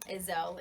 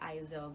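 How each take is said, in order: First: The name starts with an 'eh' sound. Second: The name starts with an 'eye' sound. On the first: This is how the owner says the name. "Ezel is how you say it" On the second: This is how many other people say the name. "I know a lot of people say Izel"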